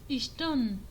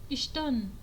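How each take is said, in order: No difference in how they are said.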